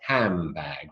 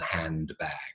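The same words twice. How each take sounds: First: The D sound is dropped from the word. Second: The D sound is pronounced in the word. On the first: "it comes out as handbag" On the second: "rather than handbag"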